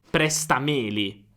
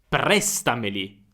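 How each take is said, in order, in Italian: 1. L'accento cade sulla sillaba me. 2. L'accento cade sulla sillaba pre. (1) "mettere l'accento su me" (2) "presta rimane presta, allora meli non ha un accento"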